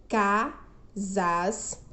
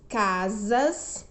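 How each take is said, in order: First: "casas" said as ca, pause, sas; split into syllables. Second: Said in the usual way. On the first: Shown as a demonstration. Teacher showing two syllables, "casas" split ca, sas. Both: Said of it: "Duas sílabas".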